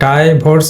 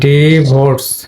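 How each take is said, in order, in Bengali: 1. প্রথম স্বরধ্বনিটি লম্বা 'eye' শব্দের মতো। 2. প্রথম স্বরধ্বনিটি ছোট 'ih' শব্দের মতো। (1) "আই লং সাউন্ড আই, তাহলে তোমার ডাইভোর্স হবে, কিন্তু ডাইভোর্স তো নয়" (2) "ফনেটিক ট্রান্সক্রিপশন করলে হবে তোমার ডিভোর্স"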